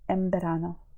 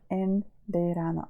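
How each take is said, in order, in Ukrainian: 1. Слова зливаються разом зі звуком "mb". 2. Ці два слова вимовляються повільно й окремо. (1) "але вони дуже скорочують і кажуть" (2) "якщо дуже так поступово читати, то ми скажемо"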